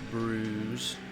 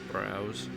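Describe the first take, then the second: First: It is said in an exaggerated Australian accent. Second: It is said in a plain, unexaggerated accent.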